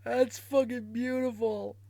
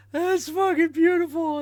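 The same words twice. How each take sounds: First: Said in the usual way. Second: Higher and louder, thrilled; delighted, louder. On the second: Real, not acted. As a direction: raise it with glee.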